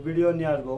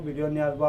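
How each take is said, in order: Both takes have the same delivery.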